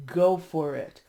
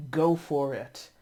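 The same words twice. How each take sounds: The two takes are said the same way.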